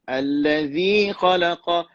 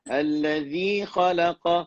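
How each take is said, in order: The two takes are said the same way.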